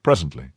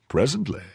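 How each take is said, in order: First: Said in the usual way. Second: Higher, questioning "Presently?"; surprised echo. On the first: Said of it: "Presently? And why presently?". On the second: Acted. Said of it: "And why presently?".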